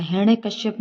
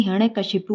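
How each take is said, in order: First: हिरण्यकश्यप ending in "-shyap"; हिरण्यकश्यप said as hiranyakashyap; wrong form. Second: हिरण्यकशिपु ending in "-shipu"; हिरण्यकशिपु said as hiranyakashipu; correct form. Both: Shown as a demonstration. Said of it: "हिरण्यकशिपु होता है".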